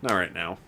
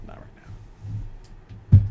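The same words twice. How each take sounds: First: Said in the usual way. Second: Very slow, breathy whisper. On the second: Shown as a demonstration. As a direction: breathe it out slowly.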